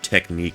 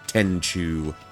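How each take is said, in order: First: The word is said with its standard pronunciation. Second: The word is said like 'tenchu'. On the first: The speaker calls it right. "I pronounced the word technique as tenchu" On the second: The speaker calls it wrong. "when I was a child, I pronounced the word technique as tenchu"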